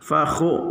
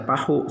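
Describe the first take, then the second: First: It begins with an f sound, rasping kh. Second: It begins with a p sound, plain h. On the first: The speaker calls it right. "fa dengan kha" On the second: The speaker calls it wrong. "jangan baca pahu, salah"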